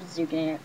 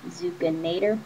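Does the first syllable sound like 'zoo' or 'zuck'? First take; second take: zuck; zoo. First: The first syllable sounds like 'zuck'. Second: The first syllable sounds like 'zoo'. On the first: This is how it is said in the show. "I think it's Zuckinator because that's how Spectra says it in the show" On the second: The name comes from the word bazooka. "I think it might be that because it's a bazooka. So it has Zuka"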